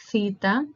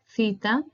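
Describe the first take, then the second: Both takes have the same delivery.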